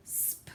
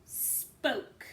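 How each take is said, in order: First: "sp-oak" pulled apart softly; stretched sounding out. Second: "spoke" said whole; blended word. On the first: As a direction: segment "sp-oak". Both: Shown as a demonstration. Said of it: "This word is".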